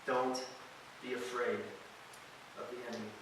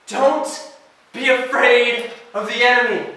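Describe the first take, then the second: First: Hushed verse. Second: "Don't be afraid of the enemy" called out much higher and louder, hitting "afraid"; full-voiced proclamation. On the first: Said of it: "he says this". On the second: Preacher to students, proclaiming "Don't be afraid of the enemy". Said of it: "Nehemiah can say that". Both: Shown as a demonstration.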